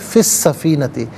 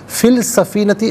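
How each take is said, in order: First: The L merges into a doubled S sound. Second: An L sound is pronounced before the S. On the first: The speaker calls it right. "लाम को पढ़ा ना जाए" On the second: The speaker calls it wrong. "फ़िल सफ़ीनती गलत है"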